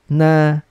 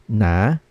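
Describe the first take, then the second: First: The pitch stays high and level. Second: The pitch rises from middle to high. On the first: "first tone, relax lang" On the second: "We're going to read this in the second tone naman"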